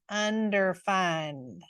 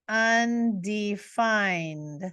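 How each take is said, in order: First: The word is said with a twang, like underfined. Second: The word is said plainly, without any twang.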